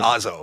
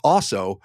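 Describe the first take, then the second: First: The name sounds like ozzo, with a z. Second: The name sounds like the word also. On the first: The speaker calls it right. "but it's more like O Z O, like Ozzo" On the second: The speaker calls it wrong. "so I always said also"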